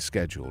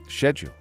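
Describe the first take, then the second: First: It is said the American way. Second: It is said the English way.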